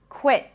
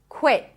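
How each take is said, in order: First: The final T is held, an abrupt stop. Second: The same.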